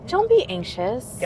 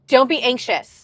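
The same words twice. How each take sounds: First: The tone is gentle and comforting. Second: The tone is stern and scolding. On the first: The listener is being reassured and supported. The speaker calls it right. "That's a totally different vibe" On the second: The listener should feel guilty for worrying. The speaker calls it wrong. "that sounds very different"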